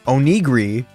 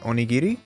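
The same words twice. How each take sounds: First: It is said in an American accent. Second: It is said in a non-American accent. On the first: "I gotta say it like an American" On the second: "I did the thing where I said it in a different accent"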